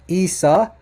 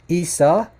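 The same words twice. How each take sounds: Both takes have the same delivery.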